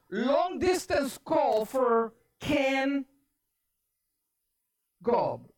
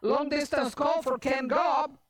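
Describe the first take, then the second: First: Slow, drawn-out operator announcement. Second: Lightly voiced operator announcement. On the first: Retold or imitated. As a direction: announce the call slowly, pausing before the surname. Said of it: "On the other line, the voice says". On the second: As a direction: announce the call in one continuous run. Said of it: "And so the lady's like".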